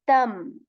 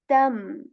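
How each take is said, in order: First: The syllable ends with an m sound. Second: The same.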